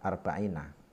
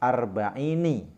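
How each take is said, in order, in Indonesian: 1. Suku kata terakhir diakhiri dengan vokal 'a'. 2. Suku kata terakhir diakhiri dengan vokal 'i'. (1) "mestinya arba'ina" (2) "di sini karena menjaga sajak ... dibaca kasrah"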